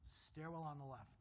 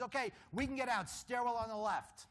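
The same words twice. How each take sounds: First: Said in the usual way. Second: Raised, higher call; announcing the way out. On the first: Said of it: "repeats it quietly". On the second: Retold or imitated. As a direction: call out the exit to the group. Fire warden announces the exit.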